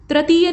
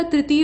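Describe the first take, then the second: First: तृतीय starting "tra"; wrong form. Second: तृतीय starting "tri"; correct form. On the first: Teacher showing the mistake, तृतीय starting "tra". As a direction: say तृतीय as "trateeya". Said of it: "नहीं होता". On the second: Teacher correcting it, तृतीय starting "tri". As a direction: say तृतीय as "triteeya". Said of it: "तृतीय होता है". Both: Shown as a demonstration.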